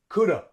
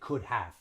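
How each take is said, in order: First: 'Have' shrinks to a weak schwa sound. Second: Both words are said in full. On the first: The speaker calls it right. "they say coulda or could've" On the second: The speaker calls it wrong. "Native English speakers don't say could have"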